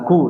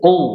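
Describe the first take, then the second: First: It begins with a plain k made at the front. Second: It begins with a deep q made in the throat. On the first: The speaker calls it wrong. "jangan ku" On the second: The speaker calls it right. "Qaf ya, qaf coba"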